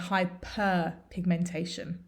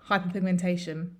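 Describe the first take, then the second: First: It is said with hyper clearly exaggerated. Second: It is said quickly, with hyper barely distinct. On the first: It is very clear which word is meant. "we exaggerate the pronunciation" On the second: It is hard to tell hyper from hypo. "if we say it quickly"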